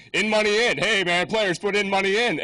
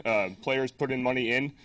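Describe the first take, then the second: First: Higher, louder teasing of "players put in money in", leaning on "money" and the final "in"; mocking hecklers. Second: Said in the usual way. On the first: Conference crowd teasing the flyer typo, loud mocking voice. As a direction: rib the speaker about "players put in money in". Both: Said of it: "everyone kept saying".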